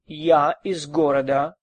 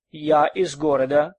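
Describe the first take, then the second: No difference in how they are said.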